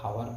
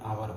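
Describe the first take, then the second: First: The word starts with an audible h sound. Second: The word starts with a vowel, no h sound. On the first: "इसे अगर आप हावर पढ़ते मान लो" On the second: "यहाँ पर एच silent है"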